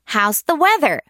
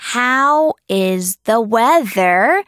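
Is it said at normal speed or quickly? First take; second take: quickly; normal. First: It is said a little faster, contracted. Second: It is said at a normal, unhurried pace.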